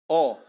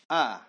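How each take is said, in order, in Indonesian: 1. Vokalnya membulat ke arah 'o'. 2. Vokalnya 'a' penuh, terbuka. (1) "Tidak boleh A ke O-oan" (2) "maka kita harus baca dengan A sempurna"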